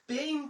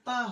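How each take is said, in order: First: It is read like English 'pain' with final n. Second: It is a short nasal vowel without final n. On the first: The speaker calls it wrong. "লেখা তো একরকম" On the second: The speaker calls it right. "উচ্চারণ তো আরেক রকম"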